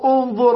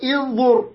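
First: The word begins with an 'u' vowel. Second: The word begins with an 'i' vowel. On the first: The speaker calls it right. "لماذا قلنا انظر" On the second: The speaker calls it wrong. "ولم نقل انظر"

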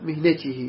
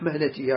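First: The first vowel is i, as in mihnatihi. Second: The first vowel is a, as in mahnatihi. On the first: The speaker calls it wrong. "وغير الأصمعي جاز يعني قال على مهنته" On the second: The speaker calls it right. "ولكن الأصح مهنته هكذا"

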